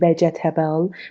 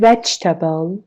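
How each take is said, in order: First: The vowel after the stressed syllable is pronounced. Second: The vowel after the stressed syllable is silent. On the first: The speaker calls it wrong. "نمیگیم vegetable" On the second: The speaker calls it right. "میگیم که vegetable"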